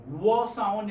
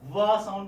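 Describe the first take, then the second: First: "wa" drawn out with rounded lips and no teeth contact. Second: "va" begun with a v, louder; v sound. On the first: Teacher asking students the difference, rounded w. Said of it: "you round your lips". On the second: Teacher contrasting it with wa for class, v sound. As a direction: start "va" on a firm v, lips unrounded. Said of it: "What's the difference?". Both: Shown as a demonstration.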